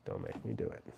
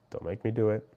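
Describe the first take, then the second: First: Very low, hushed warning; mock menace. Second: Said in the usual way. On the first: Streamer warns a viewer he may block him, in low mock menace. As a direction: drop right down into a quiet playful threat. Mock threat repeated much lower.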